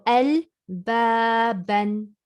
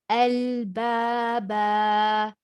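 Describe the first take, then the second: First: The word ends with an n sound. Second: The word ends with an a vowel. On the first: The reader continues past the word. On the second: The reader stops on the word.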